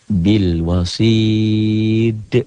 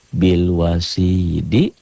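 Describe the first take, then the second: First: The phrase ends on a stopped, bounced d. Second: The final d is followed by an i vowel. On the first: The reading stops at this word. "Jika berhenti membacanya, maka dal ini menjadi sukun" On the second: The reading continues without stopping. "nih cara tulisan"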